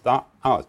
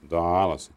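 First: A glottal stop separates the words. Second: The words run together smoothly without a break. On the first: The speaker calls it right. "And all these glottal stops everywhere" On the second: The speaker calls it wrong. "I was used to singing Italian, where a nice legato and elisions"

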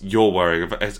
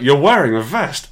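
First: The voice sounds scornful and mocking. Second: The voice sounds admiring and excited. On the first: The speaker thinks the wearer looks foolish. "A bit like, I suppose it was, "You look like a prick,"" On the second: The speaker finds the wearer attractive. "Oh my God, impregnate me immediately"

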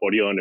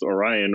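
First: The name is said the way other countries say it. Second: The name is said the usual American way. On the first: This is how people abroad say the name. "if you're from another country" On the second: This is how people locally say the name. "I guess I'm just known as Orion"

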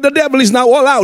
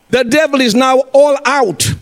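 First: The sentence is spoken quickly. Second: The sentence is spoken slowly. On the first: The speaker calls it wrong. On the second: The speaker calls it right.

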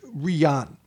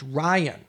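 First: The name is said with a Russian pronunciation. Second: The name sounds like the English name Ryan. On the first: "they pronounce it Ryan" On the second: "that is an anglicized version of that term"

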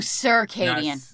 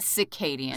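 First: The first syllable sounds like 'circle'. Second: The first syllable sounds like 'cicada'. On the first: The speaker calls it right. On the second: The speaker calls it wrong. "Not circadian"

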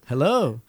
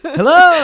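First: It is said at a quieter volume. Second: It is said loudest of all.

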